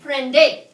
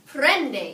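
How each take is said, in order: First: The stress is on the last syllable. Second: The stress is on the first syllable. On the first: The speaker calls it wrong. "Or is it prende?" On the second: The speaker calls it right. "It's over the second to last syllable"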